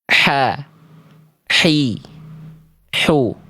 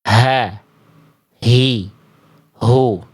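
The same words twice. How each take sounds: First: The h comes from the middle of the throat. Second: The h comes from deep in the throat. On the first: The speaker calls it right. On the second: The speaker calls it wrong. "Kalau H kecil dilafalkan terlalu ke bawah, terlalu ke pangkal"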